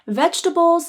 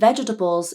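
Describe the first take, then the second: First: The word is said with three syllables. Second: The word is said with four syllables. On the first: The speaker calls it right. "Vegetables is three syllables" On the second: The speaker calls it wrong. "vegetables is four syllables"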